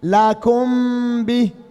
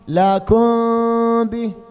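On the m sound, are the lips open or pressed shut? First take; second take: pressed; open. First: The lips press firmly shut on the m sound. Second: The lips stay open on the m sound. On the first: "والثاني الإطباق مع الشدة ... خطأ" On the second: "الأول الانفتاح ... خطأ"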